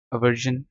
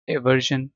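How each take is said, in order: First: "अवर्जन" opening on a short uh; "अवर्जन", first syllable as uh; alternative pronunciation. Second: "एवर्जन" opening on an ay vowel; "एवर्जन", first syllable as ay; alternative pronunciation. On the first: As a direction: say "अवर्जन" with a neutral first vowel, uh-VUR-zhun. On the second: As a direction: say "एवर्जन" with a clear ay at the start. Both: Shown as a demonstration. Teacher gives two pronunciations of aversion.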